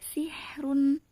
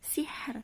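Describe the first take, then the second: First: The word ends with a vowel and n. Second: The word stops on the final r sound.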